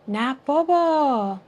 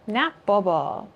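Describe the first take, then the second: First: It sounds like surprised, disbelieving amazement. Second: It sounds like a firm, flat refusal. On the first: The speaker is surprised and can hardly believe it. "No way. I'm surprised. I didn't know that" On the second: The speaker absolutely will not do it. "Like no way. Absolutely not"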